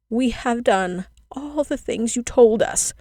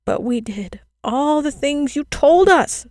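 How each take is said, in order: First: Put-on slow, higher pleading cry of children; children crying out their plea. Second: Put-on much higher, louder and slow, childlike wail; a desperate child's plea, voice stretched thin; children pleading with the girl in despair; crying despairingly. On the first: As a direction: beg her, drawing every word out. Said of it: "the children cried again". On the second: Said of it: "the children cried despairingly". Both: A narrator's reading.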